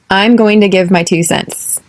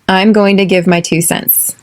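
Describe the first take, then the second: The two takes are said the same way.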